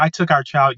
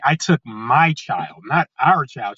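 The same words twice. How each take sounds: First: Said in the usual way. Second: Put-on my child pressed, our child falling; mocking the ex's correction with stress on "my". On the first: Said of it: "she's just all like". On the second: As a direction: hit "my" and make "our" the word being taken back. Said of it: "Oh, no, excuse me".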